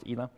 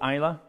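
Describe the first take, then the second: First: It does not begin like Islay's first syllable. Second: It begins like the first syllable of Islay. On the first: The speaker calls it right. "but Ila is just pronounced Ila" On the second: The speaker calls it wrong. "a lot of people pronounce it Caol Ila because it's on Islay"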